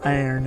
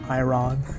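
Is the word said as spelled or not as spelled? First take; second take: not as spelled; as spelled. First: The word is said unlike its spelling. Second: The word is said just as spelled. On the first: The speaker calls it right. "it's called iron" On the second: The speaker calls it wrong. "and not iron"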